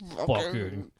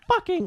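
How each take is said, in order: First: The word is said in a deep voice. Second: The word is said in a high-pitched voice. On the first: "It's not going to be like a black man" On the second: "In that high-pitched tone"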